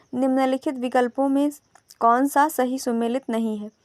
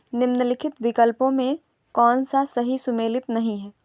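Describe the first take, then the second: Both takes have the same delivery.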